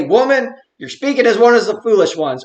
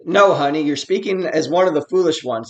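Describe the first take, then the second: First: Stern rebuke. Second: Gentle correction. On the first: Preacher trying out Job's answer to his wife, stern rebuke. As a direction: put force on "Woman" as a mock reproach. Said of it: "tone and intonation of his voice. Does he say". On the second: Preacher trying Job's kinder answer to his wife, gentle correction. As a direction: let "honey" soften the correction. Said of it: "it all depends on how you read it". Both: Acted.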